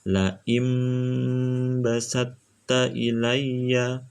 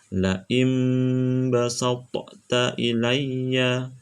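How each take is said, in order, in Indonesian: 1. Bunyi t digabung langsung ke t berikutnya. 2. Bunyi t dipantulkan dengan gema sebelum yang berikutnya. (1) "jadi cara bacanya seperti itu" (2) "itu salah karena to tidak berlaku qalqalah"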